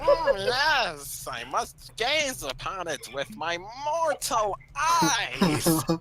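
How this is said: It is said in a Skeletor-like voice.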